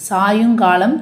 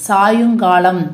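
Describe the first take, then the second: Both takes have the same delivery.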